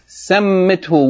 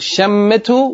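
First: The word begins with an s sound. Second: The word begins with a sh sound. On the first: "with seen" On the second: "with sheen"

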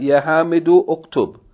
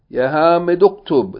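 First: The second word starts with its own u vowel. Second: The words run together without the initial u. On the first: The speaker calls it wrong. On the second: The speaker calls it right.

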